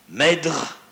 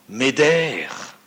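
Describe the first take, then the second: First: The name is said with its original pronunciation. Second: The name is said with a French pronunciation. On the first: This is the exact pronunciation of the name. "pour le prononcer exactement" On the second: This is how French speakers usually say the name. "en français nous disons couramment Médère"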